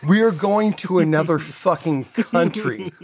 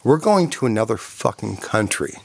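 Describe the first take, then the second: First: Slow, higher, laughing through the words; amused incredulous restatement; laughing disbelief. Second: Said in the usual way. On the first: Retold or imitated. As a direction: repeat it as if it's absurd. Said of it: "That was fucking it". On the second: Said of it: "this is what Danny said".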